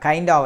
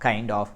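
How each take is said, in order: First: The two words blend into one reduced word. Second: The two words are said fully and separately.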